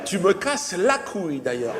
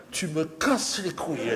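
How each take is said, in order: First: Slow, otherworldly, laughing; a hammed-up annoyed alien; mock angry alien. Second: Said in the usual way. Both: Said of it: "Il s'est énervé".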